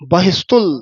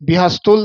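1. ਪਹਿਲੀ ਅੱਖਰੀ ਨੂੰ 'a' ਸਵਰ ਨਾਲ ਬੋਲਿਆ ਜਾਂਦਾ ਹੈ। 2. ਪਹਿਲੀ ਅੱਖਰੀ ਨੂੰ 'i' ਸਵਰ ਨਾਲ ਬੋਲਿਆ ਜਾਂਦਾ ਹੈ। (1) "ਬੱਬੇ ਦੇ ਵੀ ਸਿਹਾਰੀ ਨਹੀਂ ਲੱਗਣ ਦੇਣੀ" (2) "ਬਿਹਸਤੁਲ ਨਹੀਂ ਕਹਿਣਾ"

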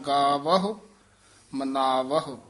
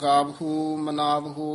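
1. ਅੰਤਲੀ 'u' ਧੁਨੀ ਛੋਟੀ ਅਤੇ ਹਲਕੀ ਹੈ। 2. ਅੰਤਲੀ 'u' ਧੁਨੀ ਲੰਮੀ ਅਤੇ ਭਾਰੀ ਹੈ। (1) "ਸੂਖਮ ਜਾ ਉਚਾਰਨ ਕਰਨਾ" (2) "ਹੂੜੇ ਨਹੀਂ ਲਾਉਣੇ ਹਨ। ਗਾਵਹੁ ਮਨਾਵਹੁ ਇਸ ਤਰ੍ਹਾਂ ਨਹੀਂ ਕਹਿਣਾ"

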